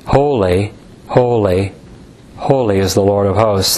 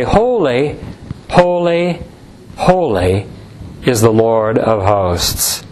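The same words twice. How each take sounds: First: Said in the usual way. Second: Slow, falling solemn chant of holy; solemn recitation. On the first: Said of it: "In the Hebrew". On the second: Acted. Preacher quoting the seraphim to his congregation, solemn and slow. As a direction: intone it like the angels' cry.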